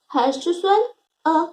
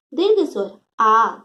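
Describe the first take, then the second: First: "अ" clipped quick and short; short vowel a. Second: "आ" held long, pitch lower; long vowel aa. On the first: Teacher shows pupils the short vowel, "अ" said quick and brief. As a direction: snap out a brief "अ". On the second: Teacher contrasts for pupils, "आ" held twice as long. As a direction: stretch "आ" to double length. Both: Shown as a demonstration.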